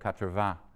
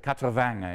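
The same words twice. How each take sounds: First: It is said with a standard French accent. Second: It is said with a southern French accent. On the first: "instead of" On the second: "a Southern French accent"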